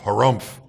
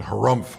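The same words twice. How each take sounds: First: Pompous harumph, louder; hammed-up courtier harumph, louder; louder mock harumph. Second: Mock harumph. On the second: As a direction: grunt it like a fawning courtier. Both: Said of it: "they all join him in saying".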